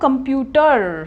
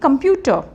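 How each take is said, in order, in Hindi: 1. अंतिम r ध्वनि साफ़ बोली जाती है। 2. यह शब्द अंतिम r ध्वनि के बिना खत्म होता है। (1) "अब इसको आप बोलते हो कंप्यूटर" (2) "र पे स्ट्रेस नहीं करोगे"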